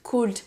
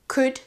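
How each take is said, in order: First: The L sound is pronounced. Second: The L sound is silent. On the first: The speaker calls it wrong. "On ne dit pas" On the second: The speaker calls it right. "je n'ai jamais prononcé le L"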